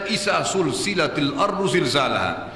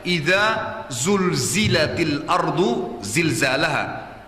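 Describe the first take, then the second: First: The z sounds become hissing s sounds. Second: The z sounds are voiced and buzzing. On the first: It has no meaning. The speaker calls it wrong. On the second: When the earth is shaken violently. The speaker calls it right.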